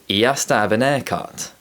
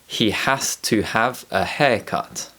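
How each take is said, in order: First: The h is dropped even from haircut. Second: Every h sound is clearly pronounced.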